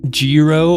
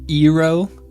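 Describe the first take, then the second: First: The word begins with a consonant sound. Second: The word begins with a vowel sound. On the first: The speaker calls it wrong. "It's definitely not like a gyro" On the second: The speaker calls it right. "There's no like G sound as far as I know"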